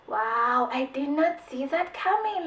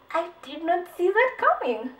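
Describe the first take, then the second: First: Mock amazement. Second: Mock stunned amazement. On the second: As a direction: say it again, more amazed. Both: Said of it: "you'll just be like".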